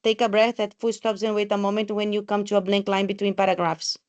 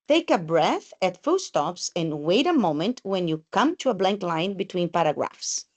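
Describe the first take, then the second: First: It is read flat, without stressing important words. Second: Important words are stressed in a lively reading.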